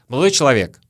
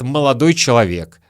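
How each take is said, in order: First: The first word is swallowed and shortened. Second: Every sound of the phrase is clearly pronounced. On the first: "зато часто говорят; Слово «молодой» немножко съедают, проглатывают" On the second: "редко говорят"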